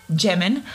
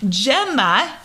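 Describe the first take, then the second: First: Jemin said as "ZHEM-in", a stumbled wrong name; mispronounced name. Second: Gemma said cleanly as "JEM-uh"; Gemma, the fixed, careful take; corrected name. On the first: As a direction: trip over the name Jemin, zh sound. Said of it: "speaking is hard". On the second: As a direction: get Gemma right at last, a bit louder. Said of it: "much better than Jemin". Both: Real, not acted.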